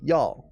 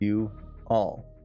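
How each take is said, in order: First: The words merge into one quick syllable. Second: Two separate syllables are said in full. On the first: "Some people say y'all" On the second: "the word "you all.""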